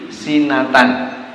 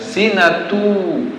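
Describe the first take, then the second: First: The word ends with a short 'an' sound. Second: The word ends with a long 'u' sound. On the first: The speaker calls it wrong. "sering terbaca menjadi sinatan" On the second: The speaker calls it right. "membacanya adalah sinatu, panjang dua harokat"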